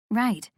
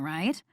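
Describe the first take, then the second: First: "Right." with a falling, settled tune; confirming. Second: "right?" low and soft with rising tune; questioning. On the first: Jen confirms the job is secret, "Right." falling. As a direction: answer "Right." firmly, falling at the end. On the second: Friend checks the job is secret, "right?" rising. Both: A narrator's reading.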